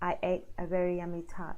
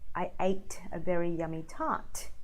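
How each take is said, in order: First: The final T is weak and barely heard. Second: The final T is clearly and sharply released. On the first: The speaker calls it wrong. "Just not as clear, not as sharp" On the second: The speaker calls it right. "with a T sound"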